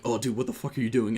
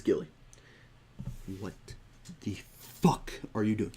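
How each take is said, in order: First: Casual, easygoing joking question; light, kidding tone between buddies. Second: Halting, deliberate mock reprimand; dead serious. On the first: Shown as a demonstration. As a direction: run it together like friendly banter. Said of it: "in a joking manner". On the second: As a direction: leave heavy pauses, imitating someone truly serious. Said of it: "he's not saying this in a joking manner".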